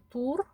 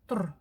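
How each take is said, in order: First: The vowel is fully pronounced. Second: The vowel is dropped. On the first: The speaker calls it wrong. "Читаем его не «тур»" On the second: The speaker calls it right. "а «тр»"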